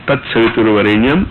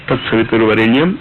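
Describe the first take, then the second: No difference in how they are said.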